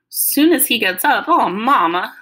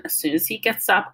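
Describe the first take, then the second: First: Loud, high, dismayed echo; Southern daughter protesting in disbelief; upset, disappointed, Southern. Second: Said in the usual way. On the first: A narrator's reading. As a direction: let down and upset, voice raised. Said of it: "Mama sounded real upset, disappointed, and Southern".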